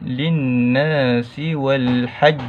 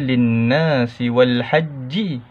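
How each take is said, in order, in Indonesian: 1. Kata terakhir berakhir dengan konsonan pantul (qalqalah). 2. Kata terakhir berakhir dengan vokal pendek. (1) "kita kena matikan. Matikan tanda sukun" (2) "Jadi kita tak baca linnasi wal hajji"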